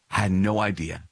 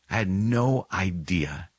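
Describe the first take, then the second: First: Said in the usual way. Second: Slow, drawn-out stress on "no"; weighty, slowed "no idea"; emphatic repeat. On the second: Real, not acted. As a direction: stretch out "no" in "no idea".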